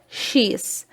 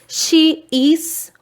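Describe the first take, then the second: First: The two words merge into one short syllable. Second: Both words are said fully and separately.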